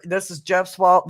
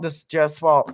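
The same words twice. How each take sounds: First: Mock blame. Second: Laughing. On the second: Pretend. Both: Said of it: "I am full of piss and vinegar".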